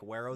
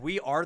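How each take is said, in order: First: It sounds like one word, 'Wero'. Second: It sounds like the two words 'we are'. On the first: The speaker calls it right. "I learned it's like" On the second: The speaker calls it wrong. "is how I always thought it was"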